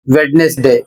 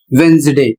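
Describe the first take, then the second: First: वेडनेसडे said wed-nes-day, d sounded; wrong spelling pronunciation. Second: वेंसडे said wenz-day, d dropped; correct Wednesday. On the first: Teacher showing the mistake students make with वेडनेसडे. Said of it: "जबकि इसको आप पढ़ते हैं". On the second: Teacher giving the right वेंसडे to students. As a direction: say वेंसडे with a silent d. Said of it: "इसका सही उच्चारण होता है". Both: Shown as a demonstration.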